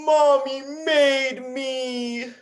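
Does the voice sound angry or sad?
sad. It is said in a sad tone. "Now we're going to do it sad"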